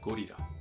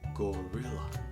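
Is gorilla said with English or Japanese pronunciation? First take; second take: Japanese; English. First: It is said the Japanese way, without English R. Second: It is said with an English R sound. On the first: The speaker calls it wrong. "not gorilla" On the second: The speaker calls it right. "We have gorilla"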